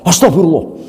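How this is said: It is said in an angry, raging tone. The person is asking forgiveness while still furious. The speaker calls it wrong. "istighfar karo ngamuk"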